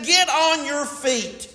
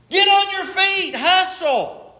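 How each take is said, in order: First: High, slow rallying call; slow, high exhortation to the congregation; preached command. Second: Very high, urgent rallying cry; pitched way up, pushing them to move; rousing coach's call. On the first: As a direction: draw out the order from a raised pitch. Preacher voices God's rousing command. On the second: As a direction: call it out like a coach driving runners. Repeats command like a coach, escalating. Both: Acted.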